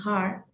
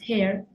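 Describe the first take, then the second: First: The vowel sounds like an open 'ah'. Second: The vowel sounds like a Spanish 'e'. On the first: The speaker calls it wrong. "hair is not pronounced har" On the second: The speaker calls it right. "it's pronounced hair"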